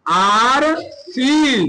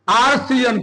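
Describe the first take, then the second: First: RCN very slow, each letter held; RCN drawn out, as if writing along; slow spelling-out. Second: Said in the usual way. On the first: Shown as a demonstration. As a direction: stretch out every letter of RCN. Formula repeated slowly while writing.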